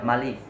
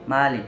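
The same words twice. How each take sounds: First: The vowel after the m is short. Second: The vowel after the m is long.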